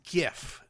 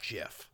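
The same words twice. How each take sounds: First: It begins with a hard g sound. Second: It begins with a soft j sound. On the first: The speaker calls it right. "it's GIF" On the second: The speaker calls it wrong. "It's not GIF"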